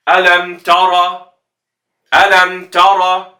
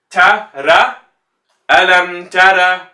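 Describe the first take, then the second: First: Alam tara slow with both letters heavy. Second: Alam tara with both letters thin and light. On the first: Teacher showing students the heavy mistake. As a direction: show the wrong all-heavy tara. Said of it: "You get heavy, heavy". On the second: Teacher showing students the light mistake. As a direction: show the wrong all-light tara. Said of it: "light and light". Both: Shown as a demonstration.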